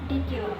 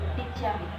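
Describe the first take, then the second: First: The two words are said separately. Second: The two words blend into one.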